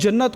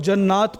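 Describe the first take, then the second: First: The second vowel is short. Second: The second vowel is drawn out long. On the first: The speaker calls it right. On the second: The speaker calls it wrong.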